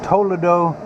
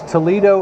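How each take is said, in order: First: It is said with a Spanish pronunciation. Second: It is said with an American English pronunciation.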